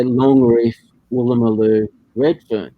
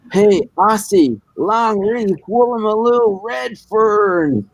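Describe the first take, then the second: First: Said in the usual way. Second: High, drawn-out Texan holler; cartoon Texan. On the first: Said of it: "And I said, "Yeah". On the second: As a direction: call out across the street as a mock Texan, each word stretched. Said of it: "a real Texan type thing, imagine in, in cartoons".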